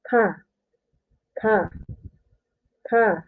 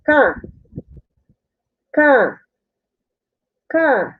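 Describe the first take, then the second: First: "ka" as a soft, light single-K ka; plain Korean ka. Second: "ka" as a tense unaspirated double-K kka, punched higher; tense Korean kka. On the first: Teacher giving the single K sound after the double one. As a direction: let "ka" come out relaxed and quieter. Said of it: "You will read as". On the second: Teacher contrasting double K with single K for learners. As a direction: press hard on the "ka". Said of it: "the K here is only one K". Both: Shown as a demonstration.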